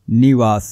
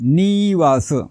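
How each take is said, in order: First: The first vowel is short. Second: The first vowel is long. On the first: The speaker calls it right. "निरहस्व आहे म्हणून त्याचा उच्चार निवास असं करायचा आहे" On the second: The speaker calls it wrong. "असं करायचं नाही"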